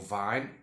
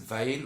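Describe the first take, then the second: First: The vowel sounds like the one in 'line'. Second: The vowel sounds like the one in 'rain'. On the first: "or vine. It's actually fine" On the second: "you can pronounce it vain"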